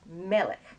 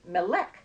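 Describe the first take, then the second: First: The stress is on the first syllable. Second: The stress is on the last syllable. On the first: The speaker calls it right. "It's melech" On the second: The speaker calls it wrong. "you might say melech, but that's not how it's pronounced"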